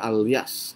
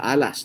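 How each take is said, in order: First: The double L is said with a 'ly' sound. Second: The double L is said as a plain 'l'. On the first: It follows the Spanish reading of the name. "Pagka kasi Kastila, ang double L, naging Lia. Kaya alias" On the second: It follows a plain local reading of the name. "O kaya alas, hindi ko po alam ang tamang pronunciation"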